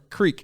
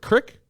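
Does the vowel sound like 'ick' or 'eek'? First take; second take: eek; ick. First: The vowel is long, like in 'seek'. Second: The vowel is short, like in 'kick'. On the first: "Is it Crick or Creek in Texas?" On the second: "Is it Crick or Creek in Texas?"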